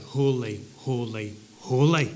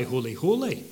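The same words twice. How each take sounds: First: Each Holy set apart and stressed, Holy, holy, holy; triple repetition. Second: Said in the usual way. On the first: Shown as a demonstration. Preacher stressing the seraphim's triple Holy. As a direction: give every holy its own beat. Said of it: "they cry". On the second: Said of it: "the seraphim don't only cry".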